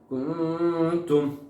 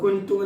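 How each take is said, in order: First: The n sound is hidden into a nasal hum. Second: The n sound is pronounced fully and clearly. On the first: The speaker calls it right. "ഖുർആൻ വായിക്കുമ്പോൾ കുന്തും എങ്ങനെ പറയാനുണ്ട്?" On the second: The speaker calls it wrong. "ഞാൻ ഇപ്പൊ പറഞ്ഞില്ല, അങ്ങനെയാണ് നമുക്ക് ഖുർആൻ വായിക്കുമ്പോൾ അല്ല"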